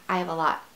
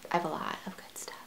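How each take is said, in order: First: Said in the usual way. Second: Quick, unvoiced whisper. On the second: Shown as a demonstration. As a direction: whisper it fast like a secret. Repeats the line, then whispers it.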